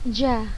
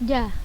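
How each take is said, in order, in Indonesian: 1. Konsonan itu ada bunyi seperti 'ch'. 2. Konsonan itu tidak ada bunyi seperti 'ch'. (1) "Kalau kita bacanya ja, nah itu khata" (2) "Antunnya bisa dengar nggak cehnya ustazah? Ja. Enggak kan?"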